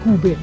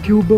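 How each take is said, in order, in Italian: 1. La parola si dice alla tedesca. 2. La parola si dice in modo non tedesco. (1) "ma si dice in realtà Cube" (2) "io dico sempre Cube"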